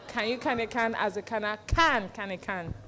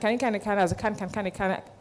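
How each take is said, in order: First: It is said slowly, broken into parts. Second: It is said fast, without breaks.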